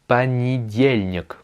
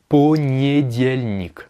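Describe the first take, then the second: First: It is said at normal speed with reduced vowels. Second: It is said slowly, every vowel pronounced as written. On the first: "moi je dis понедельник" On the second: "c'est écrit понедельник, euh, en le disant lentement"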